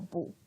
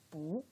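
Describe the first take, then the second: First: The word is said in its unchanged original tone. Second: The word is said in the second tone. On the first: It comes before a first, second or third-tone syllable. "we don't have to change the pronunciation of 不. It's still 不" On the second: It comes before a fourth-tone syllable. "We change it to 不, the second tone"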